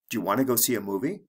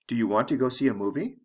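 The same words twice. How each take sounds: First: The words are reduced and run together. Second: Each word is pronounced fully and separately.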